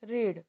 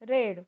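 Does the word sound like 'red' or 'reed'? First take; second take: reed; red. First: The vowel is long, like 'reed'. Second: The vowel is short, like 'red'. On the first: It is the present tense. "First base form रीड" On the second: It is the past tense. "सिंपल past form रेड"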